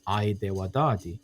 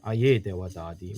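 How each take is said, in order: First: The opening vowels glide together as one diphthong. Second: The opening vowels are said as two separate sounds. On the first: "in Western dialects, you will hear the diphthong ai" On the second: "in Akwesasne, you'll hear aye dewadadi, where we separate the a and the e"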